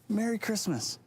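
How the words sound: It is said warmly, with a smile.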